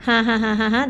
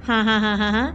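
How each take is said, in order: Both takes have the same delivery.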